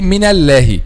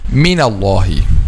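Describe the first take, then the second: First: The L sound is light and thin. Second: The L sound is heavy and thick. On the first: The speaker calls it wrong. "and this is wrong" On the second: The speaker calls it right. "a lam it should be heavy"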